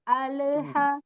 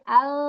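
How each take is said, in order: First: The L bounces with a short added vowel. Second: The L flows smoothly with no added vowel. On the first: The speaker calls it wrong. "jangan alha" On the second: The speaker calls it right. "bainiahkan dulu. Jadi ada aliran sedikit"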